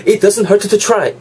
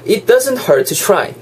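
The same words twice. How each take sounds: First: "hurt to" with two separate T's, high and laboured; over-articulated T's. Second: "hurt to" linked with a single T; dropped T. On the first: Teacher showing the difficult way, over-articulated T's. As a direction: release the T of "hurt", then another for "to". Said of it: "어렵잖아요". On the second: Teacher showing the easier way, dropped T. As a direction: run "hurt" into "to", sounding only one T. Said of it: "T 한 개를 그냥 날리시는". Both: Shown as a demonstration.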